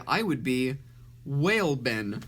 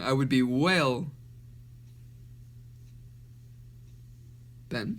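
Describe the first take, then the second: First: Short pause before "Whale Ben"; "Whale Ben" as one name after a beat; brief pause before name. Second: Huge pause between "whale" and "Ben"; "whale", a very long wait, "Ben"; long pause mid-name. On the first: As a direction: say "I would be", hold a beat, then "Whale Ben" together. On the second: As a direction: say "I would be whale", stop dead, then drop in "Ben". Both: Shown as a demonstration. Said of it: "I read it wrong".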